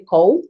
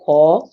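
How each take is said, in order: First: The vowel is short and clipped. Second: The vowel is drawn out and long. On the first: This is how another region says the name. "people in Upper Nimba they say" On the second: This is how the speaker's own people say the name. "we drag it out a little more"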